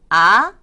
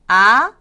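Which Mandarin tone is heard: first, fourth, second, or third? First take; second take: second; second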